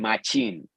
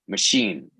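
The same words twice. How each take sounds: First: The middle consonant is not a sh sound. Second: The middle consonant is a sh sound. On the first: The speaker calls it wrong. "I was the only one that didn't say machine" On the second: The speaker calls it right. "era shh ... and then sheen"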